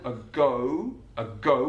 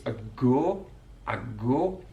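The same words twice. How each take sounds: First: A go with a gliding oh-oo diphthong; standard diphthong. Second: A go with one long flat o, no glide; Mackem monophthong. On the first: Teacher giving the standard gliding o for contrast. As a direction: slide the o of a go into oo. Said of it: "with that diphthong O sound". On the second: Teacher showing the Mackem long flat o in a go. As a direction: hold the o of a go as one pure vowel, Mackem style. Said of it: "elongated singular monophthong sound". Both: Shown as a demonstration.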